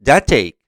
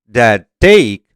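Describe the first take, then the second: First: The final consonant of that is dropped. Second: The final consonant of that is pronounced.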